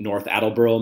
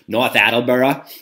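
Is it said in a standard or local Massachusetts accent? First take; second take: standard; local Massachusetts. First: It is said in a standard accent. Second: It is said in a local Massachusetts accent.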